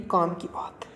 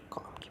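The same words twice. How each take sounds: First: Said in the usual way. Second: Whispered echo. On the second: Real, not acted. Teacher echoing his key point to students, whispered. Echoes own catchphrase under breath.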